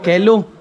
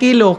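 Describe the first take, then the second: First: The first vowel sounds like 'eh'. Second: The first vowel sounds like 'ee'. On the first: "ang pronunciation ko, binisaya, kelo" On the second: "Imbis na kilo"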